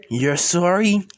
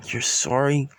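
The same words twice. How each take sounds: First: Incredulous question, lifting at the end; amused disbelief. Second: Understated, stunned question; mild shock. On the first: Siblings who just laughed at the apology, incredulous. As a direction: throw the apology back in mock disbelief. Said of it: "Izuku and Izumi starts laughing". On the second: Siblings answering their brother's apology, mildly shocked. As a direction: hold back the disbelief, only lightly shocked. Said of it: "Shocking Izuku and Izumi saying". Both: Acted.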